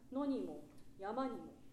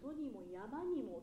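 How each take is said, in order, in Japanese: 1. 句末は下がり、区切れて聞こえる。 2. 句末は上がり、つながって聞こえる。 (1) "下がるんじゃなくて" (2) "ちょっとつなげていきたい"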